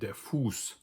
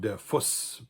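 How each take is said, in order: First: The vowel in Fuß is long. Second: The vowel in Fuß is short. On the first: The speaker calls it right. "All of those words have a relatively long vowel" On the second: The speaker calls it wrong. "So it's not der Fuß"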